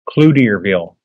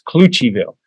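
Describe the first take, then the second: First: The name is said just as it is spelled. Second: The name is said in the shortened form Clucheville. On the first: The speaker calls it wrong. "it's spelled C-L-O-U-T-I-E-R-ville" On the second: The speaker calls it right. "But it's pronounced Clucheville"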